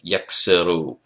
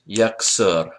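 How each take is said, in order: First: The word ends with an extra vowel syllable. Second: The word ends on a consonant, no final vowel. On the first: "we're not using the last syllable on the end of the word" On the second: "the basic pattern has two syllables"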